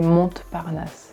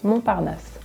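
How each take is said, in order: First: The silent letters are pronounced aloud. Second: The silent letters are left unpronounced. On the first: The speaker calls it wrong. "We don't say Montparnasse" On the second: The speaker calls it right. "It's just Montparnasse"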